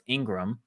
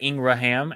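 First: The name is said with two syllables. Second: The name is said with three syllables. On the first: The letters are not all read out. The speaker calls it right. "no, it's Ingram" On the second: Every letter of the spelling is read out. The speaker calls it wrong. "people are like phonetic"

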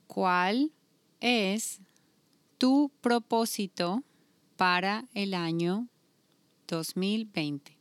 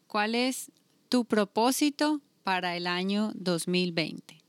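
First: It is said more slowly. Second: It is said at normal speed.

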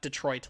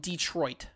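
First: The stress is on the second syllable. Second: The stress is on the first syllable. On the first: "Not Detroit" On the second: "like he really emphasized the E"

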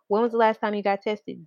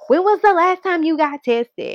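First: The question is asked in a calm, gentle tone. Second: The question is asked in a harsh, aggressive tone. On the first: The speaker calls it right. "You see how I said that in a calm tone" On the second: The speaker calls it wrong. "and now it's aggressive"

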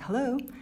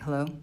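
First: It sounds cheerful and friendly. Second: It sounds annoyed, with an attitude.

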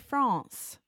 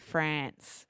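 First: It is said with a French pronunciation. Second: It is said with an Australian pronunciation. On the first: "that is how the French people would actually say it" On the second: "I used my Aussie accent to say France"

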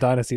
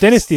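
First: It is pronounced the American English way. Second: It is pronounced the British English way. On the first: "Dynasty is American" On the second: "Dynasty is English"

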